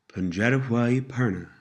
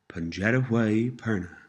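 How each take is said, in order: The two takes are said the same way.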